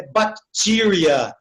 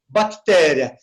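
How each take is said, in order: First: "bacteria" slowly as bac-TI-ria; English pronunciation. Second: Said in the usual way. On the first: Shown as a demonstration. Teacher showing how the pronunciation changes, slow English "bacteria". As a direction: stretch a long "ee" in the middle of "bacteria". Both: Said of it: "então muda a pronúncia".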